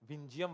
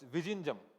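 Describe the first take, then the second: First: The name is clipped, with the middle consonant dropped. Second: The name is said in full, with every consonant. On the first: The speaker calls it wrong. "विंजियम बार बार बोल रहा हूं" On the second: The speaker calls it right. "It's विजिंजम"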